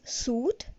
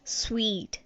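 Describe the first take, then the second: First: The word sounds like suit. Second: The word sounds like sweet. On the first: The speaker calls it wrong. "We all were pronouncing it as suit" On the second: The speaker calls it right. "the right pronunciation is sweet"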